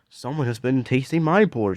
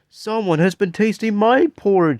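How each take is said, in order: First: It is said in a medium-sized voice. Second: It is said in a wee tiny voice.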